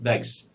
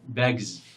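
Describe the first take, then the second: First: The word ends with a hissing s sound. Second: The word ends with a buzzing z sound. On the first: The speaker calls it wrong. "not bags" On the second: The speaker calls it right. "So it should be bags"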